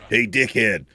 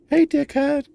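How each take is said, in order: First: It is said in an imagined man's voice. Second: It is said in a put-on woman's voice.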